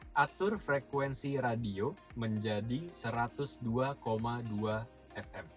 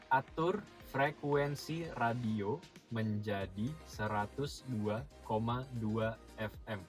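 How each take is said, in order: First: It is spoken at a normal, quicker pace. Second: It is spoken more slowly and carefully. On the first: The voice assistant does not understand it. The speaker calls it wrong. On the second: The voice assistant understands it. The speaker calls it right.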